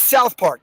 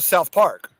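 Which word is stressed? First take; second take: South; Park. First: The stress falls on the word South. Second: The stress falls on the word Park. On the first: The speaker calls it right. "emphasis on South" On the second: The speaker calls it wrong. "Like that sounds weird"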